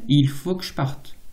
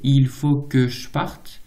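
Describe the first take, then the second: First: More of the E sounds are dropped. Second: One of the E sounds is dropped. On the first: "ou même" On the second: "peut se prononcer"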